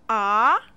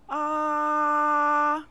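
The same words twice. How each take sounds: First: The pitch rises from middle to high. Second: The pitch stays high and level. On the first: "The second tone begins and rises from middle to high" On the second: "The first tone is a high, steady sound"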